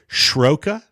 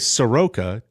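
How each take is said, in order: First: It begins with a 'shr' cluster, no vowel. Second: A vowel separates the s and r sounds. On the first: "Do you say Shroka?" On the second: "I say Soroka"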